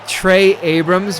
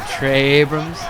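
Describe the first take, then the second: First: The two names are said as separate words. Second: The two names are drawn together into one.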